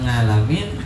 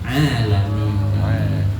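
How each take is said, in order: First: The word begins with an ng sound. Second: The word begins with a plain vowel. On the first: The speaker calls it wrong. "Bukan ngalamin" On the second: The speaker calls it right. "tetapi alamin"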